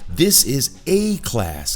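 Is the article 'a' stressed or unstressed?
stressed. The article 'a' is said strongly, with emphasis.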